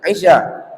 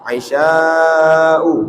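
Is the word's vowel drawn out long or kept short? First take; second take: short; long. First: The vowel is short, with no lengthening. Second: The vowel is drawn out long. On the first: The speaker calls it wrong. "jangan bilang isya" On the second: The speaker calls it right. "Mamdudan artinya dibaca panjang"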